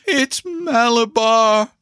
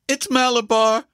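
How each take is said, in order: First: High, drawn-out, possessed scream; powerful strange scream. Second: Put-on high, strange boy's cry; strange scream. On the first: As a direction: stretch the cry out slowly, very high. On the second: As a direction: scream it as if possessed, pitched very high. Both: A narrator's reading. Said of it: "screamed in a powerful, strange voice".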